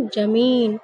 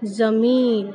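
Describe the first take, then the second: First: ज़मीन said "jameen" with j; hasty j mispronunciation. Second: ज़मीन said "zameen" with z; correct z sound. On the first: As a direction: start ज़मीन on j instead of z. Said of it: "जल्दी जल्दी में इसको क्या पढ़". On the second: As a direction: start ज़मीन on a buzzing z. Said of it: "इसका सही उच्चारण क्या होगा". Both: Shown as a demonstration.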